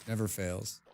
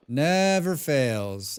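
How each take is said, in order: First: Low, soft remark; understated grumble; muttered aside. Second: Very slow, stretched delivery; long, emphatic drawl; drawn-out emphasis. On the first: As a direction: say it quietly to yourself. First muttered take, then repeated big. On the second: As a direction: stretch out each word. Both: Real, not acted.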